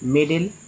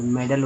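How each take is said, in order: First: The first vowel sounds like 'ay'. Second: The first vowel is a short 'e'. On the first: The speaker calls it wrong. "अगर सभी जगह ए को ए ही उच्चारण करेंगे तो मे डेल हो जाएगा" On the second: The speaker calls it right. "तो मेडल बोला जाता है"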